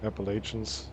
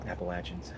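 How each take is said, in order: First: Appalachians said ap-uh-LAY-shunz, long A and sh; unsure outsider saying Appalachians with a long LAY. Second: Appalachians said ap-uh-LATCH-unz, short A and a zh/ch sound. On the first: Real, not acted. Streamer tries Appalachians, long A and sh sound. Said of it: "I don't know how to say". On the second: Shown as a demonstration. North Carolina friend corrects, Appalachians with short A. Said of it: "If you come down here and say Appalachians".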